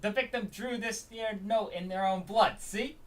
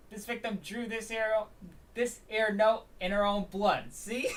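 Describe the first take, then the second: First: Slow, higher, rough try at Brooklyn; attempted Brooklyn accent. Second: Slow, high, hammed-up Brooklyn detective; retried Brooklyn accent. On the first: Detective presenting the victim's note, tentative Brooklyn accent. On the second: Detective presenting the victim's note, exaggerated Brooklyn accent. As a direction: push the Brooklyn accent harder. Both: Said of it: "I need to get the broken accent".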